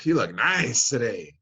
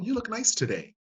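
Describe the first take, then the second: First: It is said in a suggestive, leering tone. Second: It is said in a plain, friendly tone. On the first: It carries an unwelcome, inappropriate message. The speaker calls it wrong. "Same words, exact same words, right? But the message is in the music" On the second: It is a normal, acceptable compliment. The speaker calls it right. "Socially acceptable compliment?"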